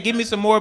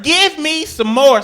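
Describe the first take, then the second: First: Said in the usual way. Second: Slow, higher begging voice; mock dog plea, drawn out. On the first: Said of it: "if she said". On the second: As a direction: ham up the dog asking for more. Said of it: "I heard".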